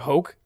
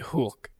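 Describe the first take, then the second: First: The vowel is a plain English oh sound. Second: The vowel is the umlaut ö sound. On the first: This is how the letter is read without the dots. The speaker calls it wrong. "normally you'd say like hoke" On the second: This is how the letter is read with the dots. The speaker calls it right. "with those, that tells you to say O, like a long O. So it'd be hulk"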